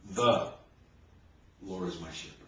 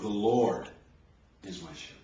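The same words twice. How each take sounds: First: The stress is on "The". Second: The stress is on "Lord".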